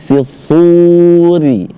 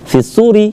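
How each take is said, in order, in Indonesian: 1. Vokal akhir dibaca panjang. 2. Vokal akhir dibaca pendek. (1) "sunya dipanjangin dulu sekitar dua alif" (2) "jangan dibaca pendek, jangan dibaca fisuri"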